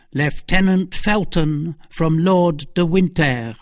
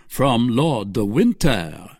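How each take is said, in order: First: Slow, raised formal announcement; servant announcing. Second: Slow, musing repeat of the name; duke repeating. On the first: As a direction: announce the visitor like a valet at the door. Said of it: "said Patrick". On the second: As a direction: turn the name over, a touch curious. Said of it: "repeated Buckingham". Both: Acted.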